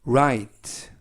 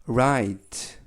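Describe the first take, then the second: Both takes have the same delivery.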